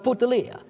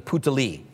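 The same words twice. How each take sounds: First: The name is said with an exaggerated Italian flavor. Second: The name is said in a plain English way.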